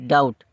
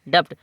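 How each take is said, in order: First: No b/p sound is pronounced before the t. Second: A b/p sound is pronounced before the t. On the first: The speaker calls it right. "बी जब silent हो जाता है" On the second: The speaker calls it wrong. "ये पढ़ने में लगता है"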